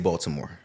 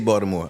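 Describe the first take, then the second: First: The middle consonant sounds like a t. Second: The middle consonant sounds like a d. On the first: This is how outsiders say the city name. "I don't say Baltimore" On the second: This is how locals say the city name. "But I do say Baltimore. ... it's like a D instead of a T"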